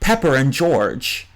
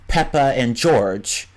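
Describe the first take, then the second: First: An R sound links the first two words. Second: No R sound links the first two words. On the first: "they'll say something like" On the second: "instead of saying something like"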